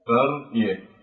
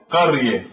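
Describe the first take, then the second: First: قرية repeated more softly, ra still thick; softer heavy ra demo. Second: قرية with a thick, heavy ra; قرية recited with a full ra; heavy ra demo. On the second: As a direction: say قرية and weight the ra. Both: Shown as a demonstration. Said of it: "فهنا جاءت الراء ساكنة ولكن بعد فتح".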